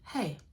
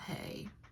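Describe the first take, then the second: First: The greeting is said in a normal way. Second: The greeting is said in a creepy way. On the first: The speaker calls it right. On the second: The speaker calls it wrong.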